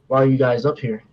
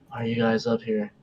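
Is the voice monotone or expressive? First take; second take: expressive; monotone. First: It is said in a normal, varied voice. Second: It is said in a flat, monotone, eerie voice.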